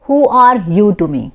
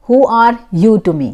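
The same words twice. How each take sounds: The two takes are said the same way.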